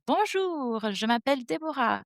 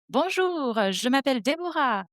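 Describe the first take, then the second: First: "Bonjour, je m'appelle Deborah" repeated in the same melodic French, high on Bonjour; learner's repeat. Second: Bonjour, je m'appelle Deborah said in clear native French, high and sung on Bonjour; French demo. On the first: Teacher playing the student who shadows her greeting, same melody. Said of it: "you will repeat exactly like me". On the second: Teacher demonstrating a French greeting for shadowing, melodic and lifted. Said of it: "repeat exactly like me". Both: Shown as a demonstration.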